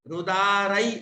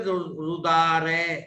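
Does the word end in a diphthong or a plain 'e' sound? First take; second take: diphthong; plain e. First: The ending glides from 'a' to 'i'. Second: The ending is a single plain 'e' sound. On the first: The speaker calls it right. "आई की मात्रा रुदारई" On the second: The speaker calls it wrong. "हम लोग बोलते रुदारे, तो ऐसा संस्कृत में नहीं चलता है"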